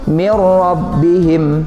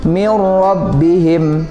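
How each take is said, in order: The two takes are said the same way.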